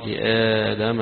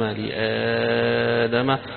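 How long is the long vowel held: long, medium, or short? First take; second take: short; long. First: The long vowel is held for two beats. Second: The long vowel is held for six beats. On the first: "حركتين" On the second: "وستة"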